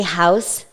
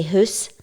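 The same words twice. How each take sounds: First: Said in the usual way. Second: "hoose" with a long oo vowel; Scots pronunciation. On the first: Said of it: "you wouldn't say house". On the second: Shown as a demonstration. Learner showing how Scots say house, "hoose" with oo. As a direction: say "hoose", oo in place of ow. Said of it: "you would say hoose".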